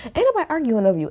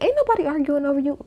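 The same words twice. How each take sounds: First: Fast, brushed-off repeat of the retort; quick repeat. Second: High, exasperated dismissal, voice jumps up; mock indignant retort. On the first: Retold or imitated. Retelling the cast's reply to Eddie, fast and dismissive. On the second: Cast mates to Eddie, a high indignant scoff. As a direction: scoff it back at him, pitched way up. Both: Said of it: "all three of them was like".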